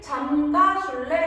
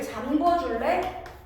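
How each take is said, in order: First: The verb is said with a plain 'ga' sound. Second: The verb is said with a rounded 'gwo' sound. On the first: The speaker calls it right. "우리는 잠가. 라고 쓰고 발음도 이렇게 합니다" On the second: The speaker calls it wrong. "많이 틀리는 이제 맞춤법 중에 하나인데 뭐라고 발음하고"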